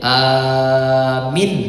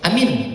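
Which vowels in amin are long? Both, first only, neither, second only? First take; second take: first only; neither. First: The first vowel is long, the second short. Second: Both vowels are short. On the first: It means believe. "Kalau dibacanya alifnya yang panjang, ianya yang pendek" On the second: It means make it safe. "Kalau dibaca pendek dua-duanya"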